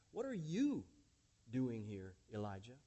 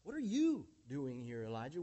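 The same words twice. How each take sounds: First: What are you doing here, with YOU hit hard; stress on YOU. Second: What are YOU doing here, Elijah, YOU stressed strongly. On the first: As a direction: lean hard on the word you. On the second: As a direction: punch the word you, then fall away. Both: Shown as a demonstration. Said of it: "with the emphasis placed upon you".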